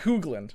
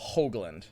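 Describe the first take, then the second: First: The first vowel is an OO sound. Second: The first vowel is a long O. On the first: The speaker calls it wrong. "It's not Hoogland" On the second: The speaker calls it right. "Long O"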